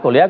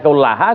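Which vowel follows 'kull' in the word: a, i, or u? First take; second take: i; a. First: The vowel after kull is i. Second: The vowel after kull is a. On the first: "Lalu kulliha juga salah" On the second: "Tadi kullaha salah"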